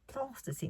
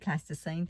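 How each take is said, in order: First: The word is said in a posh way. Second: The word is said in a plain way. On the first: "that kind of like the posh" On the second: "I call it plasticine"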